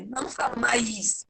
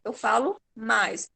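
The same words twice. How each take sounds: First: Mais drawn into ma-is; wrong stretched mais. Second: Mais in one syllable; the correct short mais; right quick mais. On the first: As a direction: split mais as if a hiatus. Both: Shown as a demonstration.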